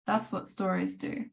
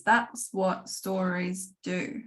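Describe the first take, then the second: First: Quieter repeat, letting it sink in; soft echo. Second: Slow, and land each word deliberately; slow emphatic statement. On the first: A teacher quietly echoing her point to the students, softly. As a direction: say it again to yourself, gently. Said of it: "soft echo of the same line". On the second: A writing teacher stating her key lesson slowly, with emphasis. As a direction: make it the lesson's key point. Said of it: "repeats the line as a slow statement". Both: Shown as a demonstration.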